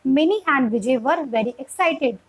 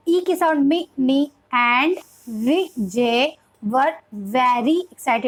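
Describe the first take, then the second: First: Slow, clear reading in one connected phrase; flowing model reading. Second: Very slow, broken-up beginner reading of Vijay and very; syllable by syllable. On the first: Teacher showing the flow of reading, slow and connected. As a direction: read it evenly, then stop at the full stop. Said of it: "जब full stop आएगा". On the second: Teacher reading for a young beginner, syllable by syllable. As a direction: sound out Vijay as vi, jay and very as ve, ry. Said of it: "syllable वे में हमें पढ़ाना चाहिए". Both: Shown as a demonstration.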